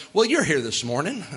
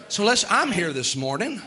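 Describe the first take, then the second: First: You're leaned on, rising at the end; stress on you're. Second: I'm leaned on, rising at the end; stress on I'm. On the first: Preacher to congregation, pressing you're. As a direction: point at them with the word you're. Turning the wish back on listeners. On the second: Preacher admitting to congregation, stressing I'm. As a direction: turn it on yourself, hitting I'm. Applying it to himself. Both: Shown as a demonstration.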